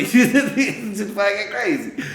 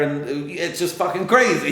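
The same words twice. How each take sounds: First: Slow, laughing it out much higher; real laughter breaking through the repeat. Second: Said in the usual way. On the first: Real, not acted. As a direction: let the laugh carry the words.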